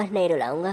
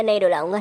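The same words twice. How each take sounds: First: "नहीं रुलाऊंगा" repeated meekly and softer, trailing off. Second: Said in the usual way. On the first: Acted. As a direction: repeat it again more softly, giving in. (धीमी आवाज़ में दबकर दोहराना) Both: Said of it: "हाँ, हाँ, समझ गया".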